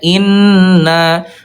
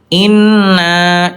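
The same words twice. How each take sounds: First: The final syllable comes out through the mouth. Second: The final syllable comes out through the nose. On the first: The speaker calls it right. "na pas nanya di sini ya" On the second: The speaker calls it wrong. "Itu kurang tepat ya"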